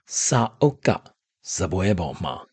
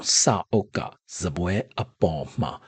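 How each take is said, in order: First: The last words are shortened and run together. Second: The last words are said in their full form.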